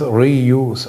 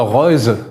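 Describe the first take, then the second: First: The name is pronounced the English way. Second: The name is pronounced the German way.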